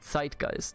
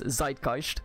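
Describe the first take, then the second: First: The word begins with a 'ts' sound. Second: The word begins with a plain 'z' sound. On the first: The speaker calls it right. "but it's actually zeitgeist. The Z in German is it's a TS sound" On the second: The speaker calls it wrong. "a lot of Anglos pronounce this zeitgeist"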